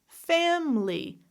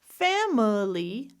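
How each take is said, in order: First: It is said with two syllables. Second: It is said with three syllables.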